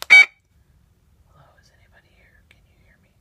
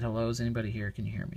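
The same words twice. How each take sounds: First: Whisper. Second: Said in the usual way. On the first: Shown as a demonstration. Investigator asking the recorder a question, whispering. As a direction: whisper as if calling to someone unseen. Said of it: "whispering voice". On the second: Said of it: "I said".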